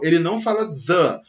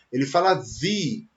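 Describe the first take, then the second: First: "the" said as "dɐ", the short form; wrong "the". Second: "the" said as "zi", long vowel form; right "the". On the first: Teacher showing students the wrong "the" before a vowel. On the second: Teacher showing students the right "the" before a vowel. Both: Shown as a demonstration. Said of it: "antes de uma palavra que comece com vogal".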